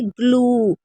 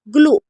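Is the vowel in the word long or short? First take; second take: long; short. First: The vowel sound is held long. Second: The vowel sound is cut short. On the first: The speaker calls it right. "लंबा ऊ, जैसे ग्लू" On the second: The speaker calls it wrong. "ग्लू ऐसे नहीं बोलेंगे"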